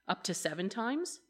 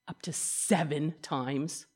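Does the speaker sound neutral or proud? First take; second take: neutral; proud. First: It is read in a plain, neutral tone. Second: It is said in a proud, self-satisfied tone.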